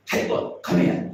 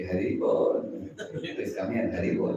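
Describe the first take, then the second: First: Sharp, louder mock-angry call; angry devotee. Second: Very sweetly. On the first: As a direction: make the greeting an abrupt, irritated order. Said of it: "Samrambhi means angry devotee". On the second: Acted. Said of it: "supposed to be said very sweetly".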